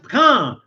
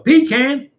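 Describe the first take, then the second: First: The word does not begin with 'pee'. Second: The word begins with a 'pee' sound. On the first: The speaker calls it right. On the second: The speaker calls it wrong.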